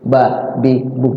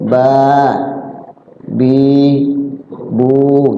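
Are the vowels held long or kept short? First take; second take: short; long. First: The vowels are kept short and clipped. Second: The vowels are held and drawn out. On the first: "kalau nggak ada panjangnya" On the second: "ditahan tuh hurufnya, jadi panjang"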